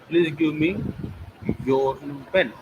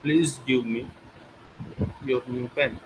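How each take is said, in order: First: The word me carries the main stress. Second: The word give carries the main stress. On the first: The pen should go to this person only. "me, not to others" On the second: The pen should be given, not taken. "When I put stress on give me"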